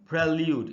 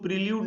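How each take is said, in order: First: The first syllable has a short 'e' vowel. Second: The first syllable has a long 'ee' vowel. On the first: The speaker calls it right. "इसको हमको पढ़ना चाहिए प्रेल्यूड" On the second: The speaker calls it wrong. "इसको प्रील्यूड नहीं पढ़ना चाहिए"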